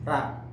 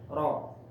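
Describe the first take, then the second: First: The vowel after the r sounds like 'a'. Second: The vowel after the r sounds like 'o'. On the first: The speaker calls it wrong. "Jadi bacanya bagaimana? Ra" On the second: The speaker calls it right. "Contoh, ro"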